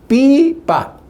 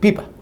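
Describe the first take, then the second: First: The word is split syllable by syllable. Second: The word is said whole without a break. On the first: The child first decodes each syllable. "pues primero lee el niño" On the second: The child then reads the whole word at once. "y ahora a continuación tiene que decir pipa"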